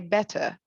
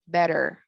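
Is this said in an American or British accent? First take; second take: British; American. First: The middle t is a crisp t sound. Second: The middle t sounds like a soft d. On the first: "British accent, we just say" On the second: "when it comes to the American accent, people say"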